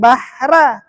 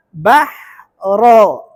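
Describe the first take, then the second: First: "bahra" with a thin ra and open a; wrong reading. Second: "Bahro" with a heavy ro darkened toward o; correct heavy ro. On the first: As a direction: say "bahra" lightly. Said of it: "bukan bahra". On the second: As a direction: thicken the final ra of "Bahro". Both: Shown as a demonstration.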